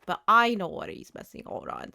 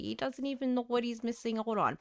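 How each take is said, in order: First: "I" punched against an unstressed rest; stress on I. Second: Said in the usual way. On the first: Real, not acted. Player knows what villager is missing, stressed "I". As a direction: hit the word "I" to set the speaker apart. Contrast of he and I.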